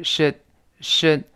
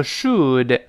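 First: "should" reduced to "shd", d unreleased; short neutral vowel in "should"; weak form. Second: "should" slowly with a full oo and released d; careful, drawn-out "should"; full form. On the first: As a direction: stop "should" on the tongue without a burst. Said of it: "变成should". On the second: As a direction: sound every part of "should". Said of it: "这是轻读". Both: Shown as a demonstration.

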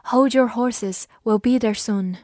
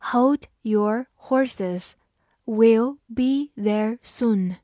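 First: Said in the usual way. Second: Very slow, word by word; slow read-through. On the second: Shown as a demonstration. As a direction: spell the sentence out word by word, unhurried. (慢读一遍，逐词停顿) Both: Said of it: "好，我们慢读一遍".

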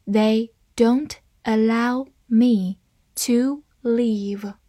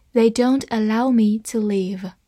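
First: Slow, pausing between words; slow reading. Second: Said in the usual way. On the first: Shown as a demonstration. Teacher models the sentence for learners, slow reading. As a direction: give each word its own beat, slowly. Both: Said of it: "好，慢慢来读".

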